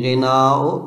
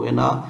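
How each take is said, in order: First: The final vowel is drawn out long. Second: The final vowel is kept short. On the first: It means singing or music. The speaker calls it right. "गिनाओ बिल मद" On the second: It means wealth or riches. The speaker calls it wrong. "अगर कसर के साथ पढ़ेंगे"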